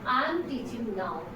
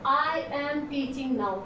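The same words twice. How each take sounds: First: "I am" is joined into one contracted word. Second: "I am" is said as two separate words. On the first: The speaker calls it right. "आई एम एक साथ बोलेंगे" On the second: The speaker calls it wrong. "No ऐसे नहीं बोला"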